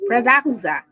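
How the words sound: Every consonant in the word is clearly pronounced. "we pronounce correctly"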